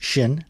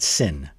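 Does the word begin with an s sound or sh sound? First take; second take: sh sound; s sound. First: The word begins with a sh sound. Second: The word begins with an s sound. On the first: The speaker calls it right. "So it's pronounced shin" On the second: The speaker calls it wrong. "not sin"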